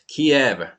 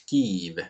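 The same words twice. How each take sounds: First: The name is said in the Russian-style pronunciation. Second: The name is said in the Ukrainian-style pronunciation. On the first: "this is more like the Russian pronunciation" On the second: "the Ukrainian pronunciation is Kiev or something"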